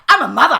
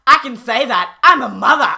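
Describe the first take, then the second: First: Louder, higher and rising; mock outraged mother; pleading the mother card loudly; indignant mother. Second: Louder, smug and self-righteous; mock indignant mother; loud smug insistence. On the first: Mother card played again. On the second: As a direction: hammer home the mother card. Mocking mother pleading authority.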